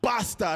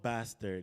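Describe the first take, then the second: First: It is said in a Nigerian accent. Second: It is said in a Canadian accent. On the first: The speaker calls it right. "you got to feel it from your diaphragm" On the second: The speaker calls it wrong. "It's not with a Canadian accent"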